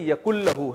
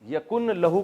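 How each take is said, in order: First: The n sound merges into the l. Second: The n sound is kept before the l.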